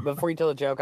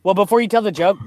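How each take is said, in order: First: Said in the usual way. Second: Loud, fast, cutting in before the joke; louder rushed cut-in. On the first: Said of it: "repeats phrase calmer". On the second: Real, not acted. Cutting in before a friend's joke, loud and rushed. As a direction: jump in quickly and loudly to stop him. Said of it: "louder first take".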